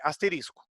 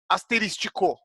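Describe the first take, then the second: First: The word has no 'ti' syllable, four syllables. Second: The word has an extra 'ti' syllable, five syllables. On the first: The speaker calls it right. "Mas o correto é asterisco, não tem o tico" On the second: The speaker calls it wrong. "Falam-se asterístico, correto?"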